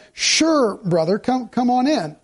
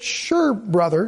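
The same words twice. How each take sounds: First: A bright, eager "Sure" that invites him in; a wholehearted "Sure, brother, come on in."; welcoming sure. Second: A drawn-out, unwilling "Sure, brother."; reluctant sure. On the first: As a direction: say "Sure" gladly and openly. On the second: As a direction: let "Sure" sag with reluctance. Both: Shown as a demonstration. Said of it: "Did you notice the difference between the sures".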